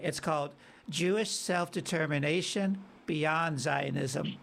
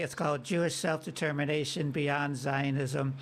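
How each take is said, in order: First: The title is said slowly. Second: The title is said fast.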